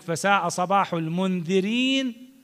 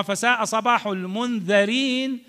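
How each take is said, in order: First: المنذرين with a kasra on the dh, said slowly; slow recitation with "munðirin"; wrong kasra. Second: المنذرين with a fatha on the dh, "munðarin"; correct fatha. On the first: Teacher recites the wrong vowel. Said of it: "هذا غلط". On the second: Teacher recites the right vowel. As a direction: lift صباح, then a clear "munðarin". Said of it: "يعني الناس اللي يقع عليهم الإنذار". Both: Shown as a demonstration.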